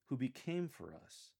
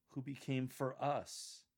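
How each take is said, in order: First: "became" carries the stress in "who became for us". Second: "us" stressed, the phrase slowed down; slow down and land firmly on "us". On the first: Coach models the first reading, stress on "became". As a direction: lean on "became", easing off "us". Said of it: "instead of became". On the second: Coach offers an alternative for the phrase, stressing "us". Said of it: "consider stressing us". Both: Shown as a demonstration.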